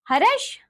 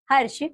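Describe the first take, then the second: First: "हर्ष" high and rising, "ha-rash"; wrong pronunciation. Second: Said in the usual way. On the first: Shown as a demonstration. Teacher showing pupils the r error, "हर्ष" mispronounced as "harash". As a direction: add a vowel inside "हर्ष", "harash". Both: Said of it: "र संबंधी अशुद्धियां".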